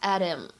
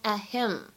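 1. t 顺畅地直接连到 him 上。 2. t 在 him 前面保持不释放。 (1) "如果呢你不强调末尾的这样一个介词宾语，你可以呢把它读成一个击穿" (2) "如果你想强调这样一个介词宾语him，那么在这里呢可以选择做一个不完全失去爆破的处理"

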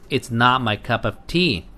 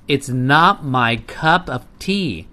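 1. 这句话读得比较快。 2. 这句话读得比较慢。

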